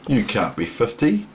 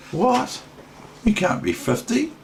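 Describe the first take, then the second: First: Said in the usual way. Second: Much higher, squeaky astonished question; mock disbelief. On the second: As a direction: play it as if you can't believe it. Mock disbelief at being fifty.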